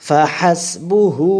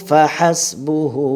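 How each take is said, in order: Both takes have the same delivery.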